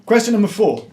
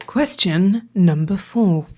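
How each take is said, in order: First: Booming announcer voice; quizmaster announcement. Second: Slow deep announcer voice; deep announcer echo. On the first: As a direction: announce it like a game show host. Quiz announcement, dramatic. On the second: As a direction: echo it low and slow like a trailer. S1 echoes in lower voice. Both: Acted.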